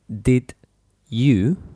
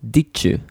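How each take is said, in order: First: The d and y sounds stay separate. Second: The d and y blend into a ch sound. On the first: "when we have did you" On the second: "we pronounce ditche"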